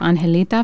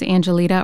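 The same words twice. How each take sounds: First: The name is pronounced with Spanish sounds. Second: The name is pronounced with English sounds.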